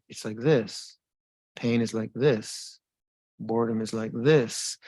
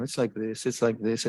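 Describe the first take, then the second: First: Deliberate, separate phrases with weight on "this"; measured phrases, each set apart by a pause, "this" given emphasis; sharp, significant. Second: Rattled off without sharpness; offhand repetition. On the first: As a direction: say "this" pointedly, as a reminder to pay attention. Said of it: "it has to become a sharpness to it". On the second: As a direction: toss it off as empty habit. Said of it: "It can't just be language, you, you know". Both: Shown as a demonstration.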